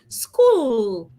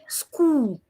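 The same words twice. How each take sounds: First: The final L is made with the tongue tip. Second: The final L is made with rounded lips. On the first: The speaker calls it right. "Instead, bring out your tongue" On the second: The speaker calls it wrong. "So you don't say school. Do not shoot out your lips"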